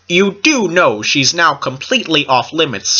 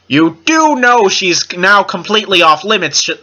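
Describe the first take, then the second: First: The line is said at a quieter volume. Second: The line is said at a louder volume.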